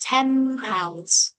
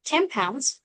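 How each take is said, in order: First: "ten pounds" with the n turning to m, "tem pounds"; fast-speech assimilation. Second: Said in the usual way. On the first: Shown as a demonstration. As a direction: let the n become m before the p. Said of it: "we sound like". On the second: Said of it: "Just like".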